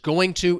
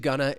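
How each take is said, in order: First: Both words are said fully and separately. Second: The words blend into one reduced word. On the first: "going to is often reduced" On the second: "reduced to gonna"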